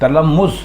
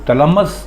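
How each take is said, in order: First: The last vowel is a short 'u'. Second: The last vowel is a short 'a'. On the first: The speaker calls it right. "मीम पर पेश है" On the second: The speaker calls it wrong. "गलत है"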